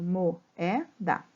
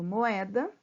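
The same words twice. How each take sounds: First: Mo-é-da, each syllable apart with small breaks; split into syllables. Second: Said in the usual way. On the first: Shown as a demonstration. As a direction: spell out Mo-é-da syllable by syllable for pupils. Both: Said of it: "Quando eu separo".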